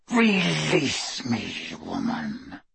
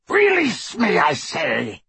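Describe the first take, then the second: First: Slow, soft werewolf snarl, sinking low. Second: High, forceful rasped werewolf demand. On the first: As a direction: drag it out through bared teeth. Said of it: "He bared his pointed teeth". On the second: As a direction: rasp it out urgently. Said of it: "rasped Greyback". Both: A narrator's reading.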